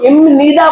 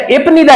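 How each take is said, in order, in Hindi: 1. यह 'nida' से पहले m के साथ बोला जाता है। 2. यह 'nida' से पहले p के साथ बोला जाता है। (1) "इसी तरह इसको इमनीदा बोले" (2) "इसको नहीं पढ़ना"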